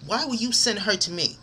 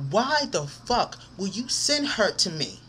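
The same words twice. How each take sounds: First: Said in the usual way. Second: "Why the fuck" drawn out slowly, each word weighted; slow, indignant stress on "Why the fuck"; angry emphasis. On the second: Real, not acted. Venting at friend who sent her over, slow angry emphasis. Repeats question slower, swearing.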